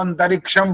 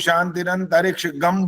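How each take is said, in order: First: The word ends with a plain 'm' sound. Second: The word ends with a separate 'gam' syllable. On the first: The speaker calls it right. "अंतरिक्षम बोलना चाहिए बस" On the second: The speaker calls it wrong. "बोल देते हैं कुछ लोग"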